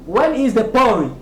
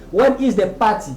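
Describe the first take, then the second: First: "party" said as "PAW-ree", T turned to a tap; American pronunciation. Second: "party" said as "PAH-tee" with a full T; easy English, a clear T in "party"; clear pronunciation. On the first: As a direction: say "party" like "pori" in the question. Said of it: "chez les Américains, eux prononcent ça". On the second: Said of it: "avec une prononciation claire". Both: Shown as a demonstration.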